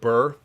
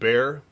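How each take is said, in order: First: The vowel sounds like the one in 'her'. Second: The vowel sounds like the one in 'air'. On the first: "I will forever pronounce it Burr" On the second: "is pronounced bear"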